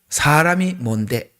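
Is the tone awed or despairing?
despairing. It sounds hopeless and self-dismissive. A human being is worthless. "욥기 칠 편에서는 사람이 무엇이 간대가 부정이잖아요"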